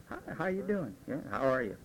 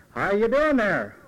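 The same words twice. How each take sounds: First: Soft, easy hello at the start of the night; low-key friendly hello; early bar greeting. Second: Louder, slower hello after a few drinks; louder tipsy greeting. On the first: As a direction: greet them quietly, early evening. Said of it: "One or two". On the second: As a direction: call it out a bit louder and slower. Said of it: "Three or four". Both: Retold or imitated.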